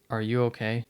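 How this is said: It is said in a sincere, caring tone.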